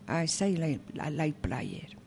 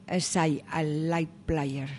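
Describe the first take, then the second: Both takes have the same delivery.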